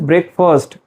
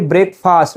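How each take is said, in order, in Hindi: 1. इसका दूसरा हिस्सा 'first' जैसा बोला जाता है। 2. इसे दो शब्दों की तरह बोला जाता है: break और fast। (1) "The correct pronunciation is break first" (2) "you don't have to say break fast"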